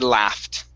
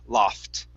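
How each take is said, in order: First: It is said with an American short a vowel. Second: It is said with a British broad ah vowel. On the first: "when I say this word, I say laughed" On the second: "the British would say la, loft"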